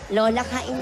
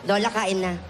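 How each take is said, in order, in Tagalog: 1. Matamis at malambing ang boses. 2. Mataray at masungit ang boses. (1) "Kailangan may lambing" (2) "Parang ang taray"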